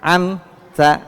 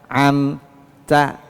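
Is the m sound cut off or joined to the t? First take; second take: joined; cut off. First: The m flows straight into the t. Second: The m is cut off before the t. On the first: The speaker calls it right. "Jangan putus" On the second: The speaker calls it wrong. "Ini putus di sini gitu ya"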